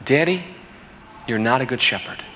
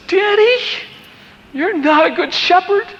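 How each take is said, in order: First: Quiet, sober echo in his own voice; subdued repeat. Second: Very high-pitched imitated child's voice; crying little girl. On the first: Retold or imitated. Father recalling his daughter's words, quiet and sober. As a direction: repeat the accusation softly, letting it sink in. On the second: Daughter to daddy at the pit of dead lambs, imitated high tearful cry. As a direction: play a tearful seven-year-old accusing her dad. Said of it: "And she starts crying".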